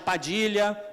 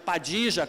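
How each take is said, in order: First: The name is said without a Rioplatense accent. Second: The name is said with a Rioplatense accent.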